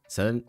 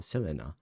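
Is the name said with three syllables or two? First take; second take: two; three. First: The name is said with two syllables. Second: The name is said with three syllables. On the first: The speaker calls it wrong. "I always say Celine" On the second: The speaker calls it right. "It's not Celine. Selena"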